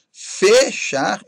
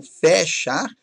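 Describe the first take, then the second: First: FECHAR slowly with closed ê; timbre fechado. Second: FECHAR with open é in FE; timbre aberto, errado. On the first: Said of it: "com timbre fechado". (fechar com ê fechado) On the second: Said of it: "e não fechar". (fechar com é aberto) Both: Shown as a demonstration.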